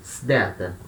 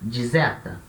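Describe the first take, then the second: First: The word begins with an sd sound. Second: The word begins with a dz sound. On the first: "o som de S D" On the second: "vai ter o som de D Z"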